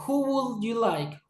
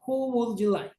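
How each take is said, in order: First: Who would said slowly with each word clear; careful who would. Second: "Who would" run together so who slides into would; blended who would. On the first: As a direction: say "Who would you like?" carefully, with who and would kept apart. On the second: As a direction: say "Who would you like?" fast and linked, the way native speakers do. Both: Shown as a demonstration. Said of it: "algunas veces lo dicen como would".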